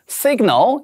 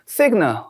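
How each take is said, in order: First: The final L is pronounced clearly and fully. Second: The final L is relaxed and barely heard. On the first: The speaker calls it right. "끝까지 L까지 명확하게 발음해 주는" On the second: The speaker calls it wrong. "이렇게 힘이 빠져서"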